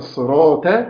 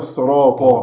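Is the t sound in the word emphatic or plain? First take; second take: plain; emphatic. First: The t sound is plain, not emphatic. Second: The t sound is emphatic, not plain. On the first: The speaker calls it wrong. "يبقى الخطأ" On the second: The speaker calls it right. "الصواب"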